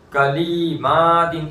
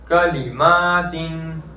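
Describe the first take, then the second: First: The second syllable 'li' is drawn out long. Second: The second syllable 'li' is kept short. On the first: The speaker calls it wrong. "लाम को खींच देते हैं, कलीमातिन इस तरह कर देते हैं" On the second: The speaker calls it right. "लाम को नहीं खींचना"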